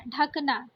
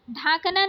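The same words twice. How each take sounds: First: ढकना with a short first a; correct short first vowel. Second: ढांकना with a long aa; wrong long first vowel. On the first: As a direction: say ढकना as "dhuk-naa". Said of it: "ये ढकना सही होगा". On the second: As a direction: say ढांकना as "dhaak-naa". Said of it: "ढांकना नहीं होता". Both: Shown as a demonstration.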